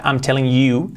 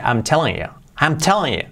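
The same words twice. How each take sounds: First: Said in the usual way. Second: "telling you" run together with a weak, reduced "you"; unstressed "you" tucked casually after "telling"; reduced final word. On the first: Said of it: "Fijaos que no dice". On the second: Shown as a demonstration. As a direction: let "you" shrink onto the end of "telling". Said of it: "Al final esa palabra dice".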